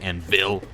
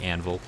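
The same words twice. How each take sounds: First: The word is said in a strong, clipped way. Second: The word is said in a smooth, flowing way. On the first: "strong like that" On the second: "more fluid like"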